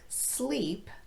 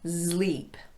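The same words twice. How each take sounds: First: It begins with a plain voiceless s sound. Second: It begins with a voiced z sound. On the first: The speaker calls it right. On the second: The speaker calls it wrong.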